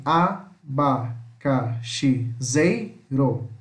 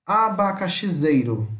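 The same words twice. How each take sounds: First: "abacaxizeiro" very slowly as a, ba, ca, xi, zei, ro; syllable by syllable. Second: Said in the usual way. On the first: Shown as a demonstration. Teacher shows how it separates, "abacaxizeiro" split into six. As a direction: pause after each syllable of "abacaxizeiro". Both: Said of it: "Se separa assim".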